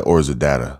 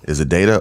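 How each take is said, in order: First: Data said as DAT-uh; first syllable of data like "dat"; short-A data. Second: Data said as DAY-tuh; first syllable of data rhymes with "day"; long-A data. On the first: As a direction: say data with the first vowel as in "dad". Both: Shown as a demonstration. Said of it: "Which one is it?".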